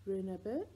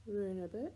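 Both takes have the same delivery.

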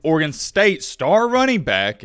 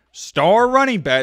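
First: Said in the usual way. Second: "star running back" higher, louder and drawn out; emphatic stress. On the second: Real, not acted. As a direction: punch "star running back" slowly and loudly. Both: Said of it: "let me emphasize that word".

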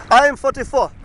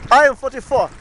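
The two takes are said the same way.

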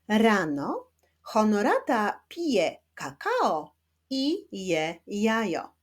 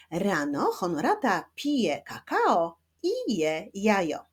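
First: Slow, word by word with pauses; slow teaching reading. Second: Measured pace with shorter pauses; slightly quicker reading. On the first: Teacher modelling a first sentence for children, slow reading. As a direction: read very slowly for beginning readers, separating the words. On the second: Teacher rereading with pupils at a slightly brisker pace, still careful. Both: Shown as a demonstration. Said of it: "ale w nieco szybszym tempie".

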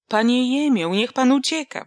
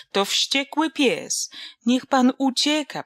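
First: Louder, higher yell of alarm; screamed warning. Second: Higher, frightened cry, slow on the first line; a girl shrieking in panic, pan rising; shrill terrified squeal. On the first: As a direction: shout at him to run, stress on pan. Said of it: "wrzasnął Wasyl". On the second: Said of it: "przeraźliwie zapiszczała Donka". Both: Acted.

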